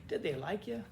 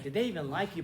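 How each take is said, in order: First: Really ask, without any jab; gently curious, in earnest; genuine question. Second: Mildly dismissive "did they EVEN like you"; lightly acted insulting disbelief; insulting question. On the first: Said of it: "But, but really". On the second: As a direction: ask it as a light jab. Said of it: "like, the insulting sense". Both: Shown as a demonstration.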